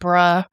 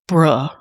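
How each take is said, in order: First: It is said in an agreeing tone. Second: It is said in a disappointed tone. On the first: The speaker agrees. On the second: The speaker is let down.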